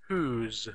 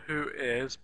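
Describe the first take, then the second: First: The words are merged into one short syllable. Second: Both words are said separately in full. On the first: The speaker calls it right. "we could use a contraction" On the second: The speaker calls it wrong. "so not who is"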